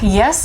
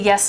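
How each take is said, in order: First: It is said in a sassy, annoyed tone. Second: It is said in a plain, respectful tone. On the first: The child responds grudgingly. The speaker calls it wrong. "say it with an attitude like" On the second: The child responds willingly. The speaker calls it right. "come to you the right way"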